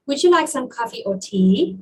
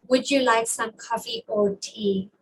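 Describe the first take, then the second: First: "tea" swoops up at the end; wrong rising intonation. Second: Choice question dropping on "tea"; "tea" goes down to close the choice; falling intonation. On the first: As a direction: wrongly lift the final "tea" like a yes-no question. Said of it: "You don't say". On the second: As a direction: let the pitch fall on the final "tea". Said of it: "the intonation goes down". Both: Shown as a demonstration.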